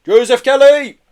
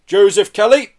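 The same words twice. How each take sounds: First: High, very loud official call; booming loudhailer voice. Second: Lightly voiced arresting officer, raised and firm; formal arrest, less booming than a hail; officer in charge. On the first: Police calling to a man in a van, booming. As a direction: boom it out as if through a loudhailer. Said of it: "a voice boomed over a loud hail". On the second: Officer addressing the man being arrested, officious. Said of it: "said the officer in charge". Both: A narrator's reading.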